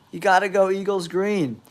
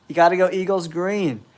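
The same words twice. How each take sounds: The two takes are said the same way.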